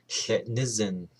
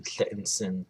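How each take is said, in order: First: Tletnizen with a full vowel after the n; third-person form. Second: Tletnsen with n running straight into s; no vowel between n and s in "Tletnsen"; first-person form. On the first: Teacher gives the he or she form, full-vowelled Tletnizen. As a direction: sound out the "ni" in "Tletnizen". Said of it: "he or she is jealous". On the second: Teacher gives the I am jealous form, compressed Tletnsen. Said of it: "I am jealous". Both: Shown as a demonstration.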